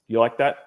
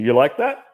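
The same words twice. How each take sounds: First: The pitch falls at the end. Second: The pitch rises at the end. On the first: It sounds confident and dominant. The speaker calls it right. "if I'm going downward or if I'm being just neutral" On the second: It sounds unsure, like a real question. The speaker calls it wrong. "that is nowhere near as seductive as"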